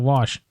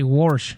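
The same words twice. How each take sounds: First: It has the usual standard pronunciation. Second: It has the regional pronunciation from up north. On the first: This is how others usually say it. "instead of wash" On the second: This is how people say it back home. "where I'm from, we say wash"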